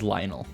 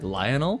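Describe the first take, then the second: First: The name is shortened, with syllables run together. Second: Every syllable of the name is clearly sounded. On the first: "or is it just Lionel?" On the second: "you're pronouncing almost all the letters like Lionel"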